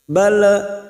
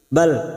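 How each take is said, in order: First: An extra vowel is added after the final l. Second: The word ends cleanly on the l sound. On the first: The speaker calls it wrong. "jangan sampai balaan bala. Seperti itu tidak boleh" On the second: The speaker calls it right. "Hanya masuk bal"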